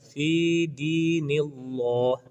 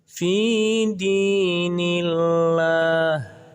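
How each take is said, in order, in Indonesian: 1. 'l' dalam Allah terdengar tebal dan berat. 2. 'l' dalam Allah terdengar tipis dan ringan. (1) "tidak boleh dibaca dengan fi dinillah, tidak boleh. Itu adalah bacaan yang sangat keliru" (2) "maka dibaca tipis"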